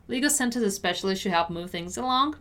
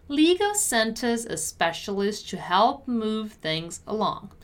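First: Brisk, connected read; fast model sentence for learners; quicker repeat. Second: Measured, carefully articulated read; deliberate teacher's model. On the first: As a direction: say it at natural speed in one flow. Teacher repeats at quicker pace. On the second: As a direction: give each word room for learners. Teacher models sentence slowly first. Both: Shown as a demonstration.

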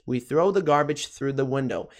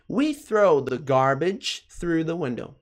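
First: Said in the usual way. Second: Careful, drawn-out English for learners; slow model sentence. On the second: Shown as a demonstration. Teacher modelling a sentence for learners, slow and careful. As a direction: model it slowly, word by word.

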